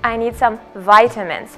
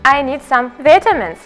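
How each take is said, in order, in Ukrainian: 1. Вимовляється з американською вимовою. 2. Вимовляється з британською вимовою. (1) "в American English" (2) "це буде British English"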